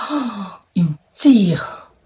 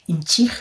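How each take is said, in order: First: Slow, breathy whisper with a crying catch; pained whisper. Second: Said in the usual way. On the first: Real, not acted. Retelling the guy pulling her, in a pained whisper. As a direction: whisper it like it hurts to say. J'aime même pas les mots.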